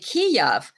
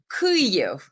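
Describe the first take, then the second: First: The name is said the Russian way. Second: The name is said the Ukrainian way. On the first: "that's Russian uh, pronunciation" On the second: "You have to say Kyiv"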